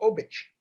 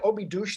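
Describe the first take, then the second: First: The name is clipped short, ending in a 'sh' sound. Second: The name is said with all its syllables. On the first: "they go Obich. Everything is shortened" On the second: "the Portuguese don't say Obidos"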